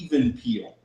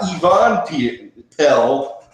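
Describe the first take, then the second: First: The last part rhymes with 'feel'. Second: The last part rhymes with 'bell'. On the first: The speaker calls it right. "but even peel" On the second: The speaker calls it wrong. "not Yvonne Pe- Pell"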